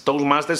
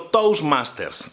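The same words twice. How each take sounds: First: Said in the usual way. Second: "Toastmasters" said slowly, each syllable clear, as if spelling it; slow clear name. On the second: Shown as a demonstration. Host spells out the club's name for viewers: slow and clear. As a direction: draw out "Toastmasters" for viewers to write down. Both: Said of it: "te lo pongo escrito".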